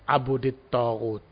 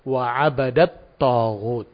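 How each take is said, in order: First: The first word has a u vowel after b. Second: The first word has an a vowel after b. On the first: This is a reading attributed to a single reciter. "dengan didomahkan di ba dan dijerkan, dikasrokan di ta" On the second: This is the agreed reading in the standard text. "adalah yang tertulis di dalam Mushaf Utsmani"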